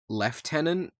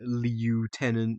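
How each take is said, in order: First: It is said with an f sound, leftenant. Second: It is said without an f sound, lootenant. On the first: "for English pronunciation, like British English, for lieutenant, we tend we tend to say lieutenant" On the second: "when I was a kid, I would just say lieutenant because it's lieutenant"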